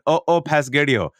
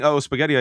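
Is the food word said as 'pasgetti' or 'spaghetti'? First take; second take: pasgetti; spaghetti. First: The food word begins with a p sound. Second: The food word begins with an s sound. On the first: The speaker calls it wrong. "I said Uh-Oh Pasgetti-O" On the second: The speaker calls it right. "Instead of saying Uh-Oh Spaghetti-O"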